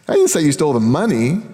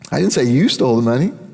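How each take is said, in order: First: The word stole carries the main stress. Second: The word you carries the main stress. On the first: The listener did something else with it. "You took the box, but I, I don't know what happened to the money" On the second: Someone else stole the money. "He stole the money"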